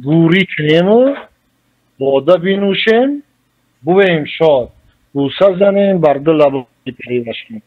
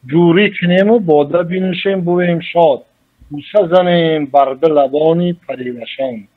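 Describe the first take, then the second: First: Slow, lifted verse reading with each half-line drawn out; poetic recitation. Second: Said in the usual way. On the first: Shown as a demonstration. Scholar reciting Rudaki's verse to the host, slow and lifted. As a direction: recite it like classical poetry, savouring the words. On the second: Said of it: "در ایجاد رودکی یک دو مصرع است".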